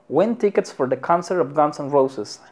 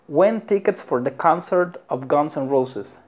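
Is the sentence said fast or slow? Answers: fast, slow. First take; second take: fast; slow. First: The sentence is said at a faster pace. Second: The sentence is said at a slower pace.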